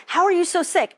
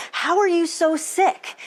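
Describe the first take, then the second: First: High, baffled question falling at the end; puzzled doctor, repeated. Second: Doctor's high, baffled rising question; puzzled doctor. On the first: Doctor repeating his question, high and baffled, falling. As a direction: repeat it, still stumped, letting it drop. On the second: Doctor puzzling over her blood work, high baffled question. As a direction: ask it like a stumped doctor. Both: Retold or imitated. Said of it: "being like".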